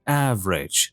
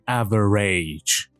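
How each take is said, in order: First: It is said with two syllables. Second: It is said with three syllables. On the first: The speaker calls it right. "میبینید که A اینجا تلفظ نمیشه" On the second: The speaker calls it wrong. "نمیگیم average"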